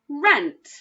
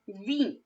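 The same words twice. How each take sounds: First: The vowel is a short 'eh' sound. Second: The vowel is a long 'ee' sound. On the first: The speaker calls it right. "That sounds right to me" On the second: The speaker calls it wrong. "try it with the E sound"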